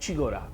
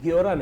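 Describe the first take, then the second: First: The g is followed directly by the o vowel. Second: A clear y glide is heard after the g. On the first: The speaker calls it right. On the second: The speaker calls it wrong.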